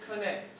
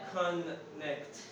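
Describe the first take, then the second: First: The n sound is short, said once. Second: The n sound is held long, doubled. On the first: The speaker calls it right. "you have to read only one" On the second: The speaker calls it wrong. "It is not connect"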